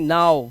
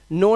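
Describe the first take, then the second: First: The vowel sounds like 'ow'. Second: The vowel sounds like 'oh'. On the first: The speaker calls it right. "O W को आउ से भी पढ़ लेते हैं" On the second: The speaker calls it wrong. "नो नहीं"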